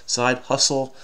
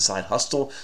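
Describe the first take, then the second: First: The T sound in hustle is not pronounced. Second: The T sound in hustle is pronounced. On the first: The speaker calls it right. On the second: The speaker calls it wrong.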